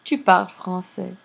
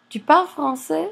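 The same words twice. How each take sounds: First: Said in the usual way. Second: "Tu parles français" pitched high and louder, rising on "français"; rising question intonation. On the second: Shown as a demonstration. Teacher turning the informal sentence into a question, rising intonation on "français". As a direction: make "Tu parles français" a question by lifting the end. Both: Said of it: "raising ... the intonation a little bit".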